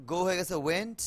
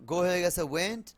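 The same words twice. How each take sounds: The two takes are said the same way.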